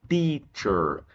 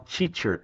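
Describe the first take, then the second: First: The word begins with a plain 't' sound. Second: The word begins with a 'ch' sound. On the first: The speaker calls it right. "não tem C H aqui no começo, é só T" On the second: The speaker calls it wrong. "Muita gente fala teacher, tá totalmente errado"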